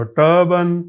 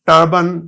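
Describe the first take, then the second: First: Said in the usual way. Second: ٹربن said with a crisp ٹ, a touch louder; clear t sound demo. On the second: Shown as a demonstration. Teacher to students, showing ٹربن with ٹ sound. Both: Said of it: "ٹی U شروع میں آ گیا".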